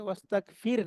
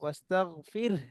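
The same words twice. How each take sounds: First: The word ends at the r with no h. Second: A clear h sound follows the r. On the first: The speaker calls it wrong. "ওয়াস্তাগফির না" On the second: The speaker calls it right. "তারপর একটা হা আছে, সেটা স্পষ্ট করতে হবে"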